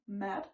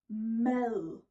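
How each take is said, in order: First: The word ends in a hard D sound. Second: The word ends in a soft, buzzing th-like sound. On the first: The speaker calls it wrong. "instead of saying the hard D" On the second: The speaker calls it right. "Just say meh and then the buzzing sound"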